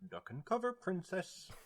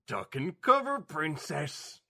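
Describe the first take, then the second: First: It is said fairly mildly, without manic glee. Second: It is said with wild, manic glee. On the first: The speaker calls it wrong. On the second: The speaker calls it right.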